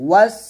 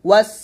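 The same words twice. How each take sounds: Both takes have the same delivery.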